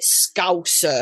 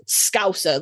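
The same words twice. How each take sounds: First: "Scouser" slowly enunciated, every vowel sounded; over-enunciated. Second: "Scouser" run together as one word; all one word. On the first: Retold or imitated. Fan imitating how the actor enunciated it, over-enunciated "Scouser". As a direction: stretch out "Scouser" syllable by syllable. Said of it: "enunciated it Scouser". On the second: Shown as a demonstration. Brit showing how locals say it, "Scouser" as one word. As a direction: say "Scouser" in one go, vowels not separated. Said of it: "It's all one word".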